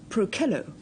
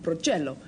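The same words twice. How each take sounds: First: The word is pronounced the Latin way. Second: The word is pronounced the Italian way. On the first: The speaker calls it right. "for the purists, I'm pronouncing it Procello" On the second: The speaker calls it wrong. "the more slovenly Italian readers later on would probably call it Procello"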